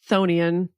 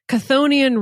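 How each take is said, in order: First: The opening ch sound is silent. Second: The opening ch sound is pronounced. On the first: The speaker calls it right. "it's actually pronounced Chthonian. The C H is silent" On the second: The speaker calls it wrong. "I'm just going to say it how it looks"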